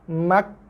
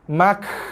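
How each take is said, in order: First: The k is pressed, then released with slight breath. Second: The k is released with a heavy burst of breath. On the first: The speaker calls it right. "balance antara tekanan pada makhraj berserta dengan hembusan nafas" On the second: The speaker calls it wrong. "bersembuh-sembuh keluar nafas pun salah juga"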